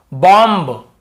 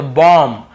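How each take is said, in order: First: बॉम्ब with the final b sounded; wrong pronunciation. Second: बॉम्ब said as "bom", no final b; silent b. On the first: Teacher showing the reading without the rule, बॉम्ब ending in b. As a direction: close बॉम्ब on an audible "mb". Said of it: "ऐसे पढ़ते हैं ना". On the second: Teacher showing the rule, बॉम्ब with b left silent. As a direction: finish बॉम्ब on a plain m. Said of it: "यहाँ पर भी बी को नहीं पढ़ना है". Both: Shown as a demonstration.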